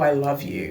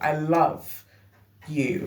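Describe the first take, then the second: First: It is said lightly, in a casual friendly way. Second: It is said intensely, with strong emphasis.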